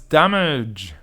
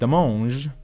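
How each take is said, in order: First: The word is said in an ordinary way. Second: The word is said with an odd, made-up pronunciation.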